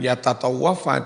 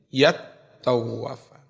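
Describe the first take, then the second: First: Two t sounds are said separately with a vowel. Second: The two t sounds merge into one doubled t. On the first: This is the underlying original form. "bukan yatatawwafa" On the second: This is the form after assimilation. "tapi yattawwafa"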